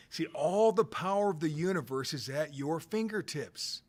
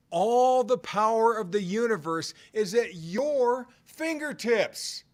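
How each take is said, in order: First: Said in the usual way. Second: Louder emphatic repeat. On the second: Shown as a demonstration. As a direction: hammer it home the second time, drawing out fingertips. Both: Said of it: "I'm gonna say it again".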